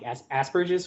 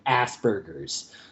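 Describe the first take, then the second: First: It is said with a non-American pronunciation. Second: It is said with an American pronunciation. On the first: The speaker calls it right. "I love the way you pronounced it too" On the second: The speaker calls it wrong. "the American pronunciation of Asperger's"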